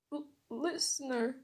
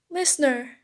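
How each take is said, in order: First: Soft, stammered call; crying. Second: Louder, excited call of the name; shouting. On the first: Boy over his unconscious friend, crying softly. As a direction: falter on the name, quietly upset. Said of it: "I cried". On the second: Classmate to girl waking up, shouting. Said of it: "Denki shouted". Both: Acted.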